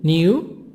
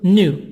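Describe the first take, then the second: First: It is said in a non-American accent. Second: It is said in an American accent.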